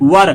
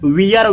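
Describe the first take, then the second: First: The vowel sounds like 'ur' in 'fur'. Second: The vowel sounds like 'eer' in 'beer'. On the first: The speaker calls it right. "इसको वर पढ़ा जाता है" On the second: The speaker calls it wrong. "वियर वेयर नहीं"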